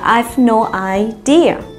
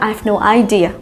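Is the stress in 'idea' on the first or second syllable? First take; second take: second; first. First: The stress in idea is on the second syllable. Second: The stress in idea is on the first syllable. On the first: The speaker calls it right. "mà là" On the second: The speaker calls it wrong. "không nói là"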